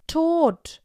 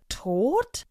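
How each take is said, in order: First: Higher, louder one-word exclamation on TOT; dramatic announcement. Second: TOT rising sharply as a question; questioning echo. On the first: Barbara tells her friends of a death, dramatic exclamation. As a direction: drop the bombshell with a high, loud TOT. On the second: Two friends echo the news, TOT as a rising question. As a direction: echo TOT in disbelief, pitch swinging up. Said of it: "wiederholte Rosa und Ingrid wie aus einem Mund". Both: A narrator's reading.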